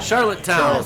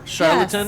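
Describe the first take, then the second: First: The name is said at a normal, careful speed. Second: The name is said very fast and squashed together.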